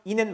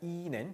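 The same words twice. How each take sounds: First: The first vowel is short. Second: The first vowel is long. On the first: The speaker calls it wrong. "말고" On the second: The speaker calls it right. "길게 발음하는 거"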